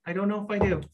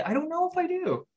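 First: Said in the usual way. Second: High squeak. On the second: Real, not acted. Repeats line, first much higher.

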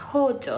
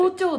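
First: Hokkaido intonation on 包丁; Hokkaido accent. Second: Standard Japanese intonation on 包丁, pitched high; standard Japanese accent. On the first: Listing dialect words for her friend, Hokkaido accent. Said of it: "北海道弁はね". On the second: Correcting her surprised friend, standard Japanese accent. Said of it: "本当は". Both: Shown as a demonstration.

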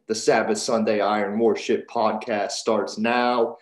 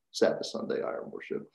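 First: Said in the usual way. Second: Eerie whisper, much lower. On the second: Shown as a demonstration. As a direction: breathe the title like a secret. Title repeated in a whisper.

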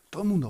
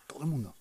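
First: "todo el mundo" lifted high; higher emphatic. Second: "todo el mundo" dropped much softer. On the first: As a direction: raise "todo el mundo" up, insisting. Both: Shown as a demonstration. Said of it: "todo el mundo repeated".

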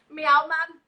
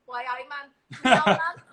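First: A light Geordie meow, louder; cat asked for a Geordie meow, lightly voiced. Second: A light Geordie "Why, I man", ending in a louder "meow man"; a mild Geordie twang on "Why, I man"; Geordie phrase. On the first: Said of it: "my cat says". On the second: Pretend. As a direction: owner voicing the Geordie cat, a light Geordie twang. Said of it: "instead of".

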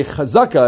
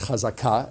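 First: "chazaka" with the stress on the middle syllable, CHa-ZA-ka. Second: "chazaka" with the stress on the last syllable, cha-za-KA; modern Hebrew pronunciation. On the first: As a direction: say "chazaka" the Yiddish way, accent on "za". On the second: Teacher correcting to modern Hebrew: "chazaka" stressed on "ka". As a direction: say "chazaka" the Hebrew way, hitting the final "ka". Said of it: "accent on the final syllable". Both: Shown as a demonstration.

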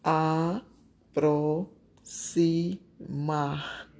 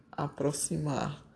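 First: Aproximar said very slowly, syllable by syllable, the x as s. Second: Said in the usual way. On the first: Shown as a demonstration. Teacher slowly splitting aproximar into syllables for pupils. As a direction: stretch aproximar into its separate syllables. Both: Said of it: "Letra F".

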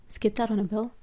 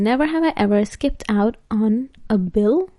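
First: Much softer, questioning to oneself; puzzled repeat. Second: Said in the usual way. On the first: Real, not acted. Vlogger puzzles over the game question, said softly to herself. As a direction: repeat it quietly as if working out the meaning.

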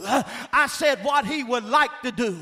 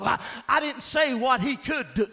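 First: Like leaned on, falling at the end; stress on like. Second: Could pushed out with a shout; stress on could. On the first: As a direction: press would like to do. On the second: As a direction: hit the word could hard. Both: Shown as a demonstration. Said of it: "Notice I said".

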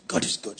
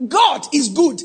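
First: Breathy hushed whisper of God is good. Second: Preached out. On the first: Preacher drops to a whisper for the congregation, hushed. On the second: Preached loudly before the hush. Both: Acted.

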